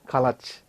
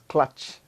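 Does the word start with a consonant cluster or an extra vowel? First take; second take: extra vowel; cluster. First: A vowel is inserted between the first two consonants. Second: The first two consonants are said together. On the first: The speaker calls it wrong. "some of them pronounce the word clutch as kalach" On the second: The speaker calls it right. "it is clutch"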